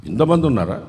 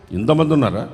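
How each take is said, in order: First: ఇంతమంది ఉన్నారా with rising end; wondering rise on ఉన్నారా; rising question. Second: Said in the usual way. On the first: Real, not acted.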